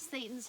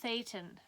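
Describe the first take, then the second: First: The first consonant is a plain s sound. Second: The first consonant is a lisped th sound. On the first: The speaker calls it wrong. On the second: The speaker calls it right.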